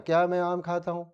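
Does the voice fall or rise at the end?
falls. The voice stays flat and falls at the end. It sounds like a statement rather than a question. The speaker calls it wrong. "ऐसे बोलते हैं?"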